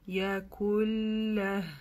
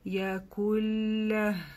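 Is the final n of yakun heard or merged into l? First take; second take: merged; merged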